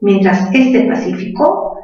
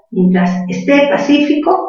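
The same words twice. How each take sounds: First: Said in the usual way. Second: "esté" stressed on the last syllable, higher; teacher stressing "esté" on the final té. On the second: Shown as a demonstration. Teacher shows students "esté" with stress on té.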